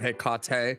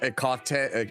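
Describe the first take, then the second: First: The name begins with an audible H sound. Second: The name begins with a vowel, no H sound.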